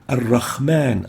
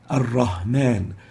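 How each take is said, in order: First: It has a rasping kh from the upper throat. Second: It has a light h from the lower throat. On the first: "exchanging the ha with the kha" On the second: "they would mistakenly say"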